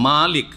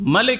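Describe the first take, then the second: First: The first vowel is drawn out long. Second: The first vowel is kept short. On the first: "একটু টান দিয়ে বললাম, আলিফ দিয়ে" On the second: "আলিফটাকে উড়িয়ে দেন আপনি"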